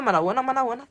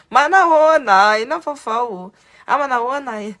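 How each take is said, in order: First: Said in the usual way. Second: Loud, bright hello, raised pitch; cheerful loud greeting. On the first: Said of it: "miteny foana hoe". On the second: Retold or imitated. Mother hailing a stranger who looks Malagasy, excited greeting. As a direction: greet a stranger like an old friend.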